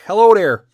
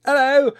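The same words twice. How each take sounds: First: Put-on loud, high Chicago accent greeting; fake Chicago accent. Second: High-pitched, louder English greeting; fake English accent. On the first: Answering an English dude, loud fake Chicago accent. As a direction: belt out an exaggerated Chicago hello. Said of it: "with my Chicago accent, fake as fuck". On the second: English dude greeting a visitor, fake English accent. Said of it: "go up to some English dude".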